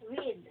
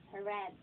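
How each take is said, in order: First: "Read" pronounced like reed, long EE; long EE vowel in "Read"; present tense read. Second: "read" pronounced like red, short E; short E vowel in "read"; past tense read. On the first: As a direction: say "Read" to rhyme with need. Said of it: "parehas po ng spelling". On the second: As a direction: say "read" to rhyme with bed. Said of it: "pag nag-pronounce ka ng past tense". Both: Shown as a demonstration.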